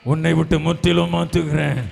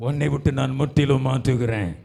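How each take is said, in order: First: Loud, driving proclamation on a level pitch; forceful declaration. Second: Firm, steady preaching voice; firm promise. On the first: Preacher repeats God's promise, forceful. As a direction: hammer the promise out loudly. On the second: Preacher voices God's promise of change, firm. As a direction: declare it firmly, holding some back. Promise given, then repeated louder. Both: Real, not acted.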